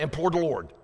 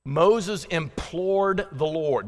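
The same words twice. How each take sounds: First: Quick, rushed run at the phrase; fast try. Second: Slowly, each word drawn out; slow careful reading. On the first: Preacher showing the phrase said real fast, quick rush. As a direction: rattle it off fast to prove a point. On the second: Preacher slowing to read a tricky verse, slow and deliberate. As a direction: spell out the hard words slowly. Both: Shown as a demonstration. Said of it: "That's hard to say real fast".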